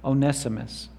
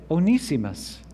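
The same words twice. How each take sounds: First: The name is said the non-British way. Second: The name is said the British way.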